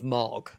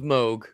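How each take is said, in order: First: The name has a short o vowel. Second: The name has a long oo vowel.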